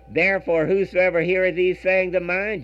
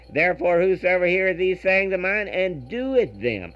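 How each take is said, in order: First: Said in the usual way. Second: "doeth them" leaned on at the end of the verse; stress on doeth them. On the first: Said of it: "I'd like you to put the emphasis on that". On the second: Shown as a demonstration. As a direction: press down on "doeth them" with a falling close. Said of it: "I'd like you to put the emphasis on that "doeth them".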